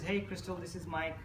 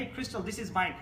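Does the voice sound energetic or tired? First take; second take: tired; energetic. First: The voice is flat, tired and unenthusiastic. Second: The voice is lively and full of energy. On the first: The speaker calls it wrong. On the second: The speaker calls it right.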